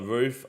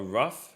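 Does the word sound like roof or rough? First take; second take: roof; rough. First: It is said with a long oo vowel. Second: It is said with a short vowel, like rough. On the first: The speaker calls it right. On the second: The speaker calls it wrong.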